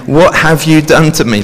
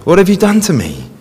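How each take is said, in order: First: "What" lifted and pressed, then falling away; stress on what. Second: "have" pitched high and pushed, then falling; stress on have. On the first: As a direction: Psalmist crying out to God, "What" pressed firmly. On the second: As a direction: Psalmist repeating his cry to God, "have" raised high. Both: Retold or imitated. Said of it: "He's saying".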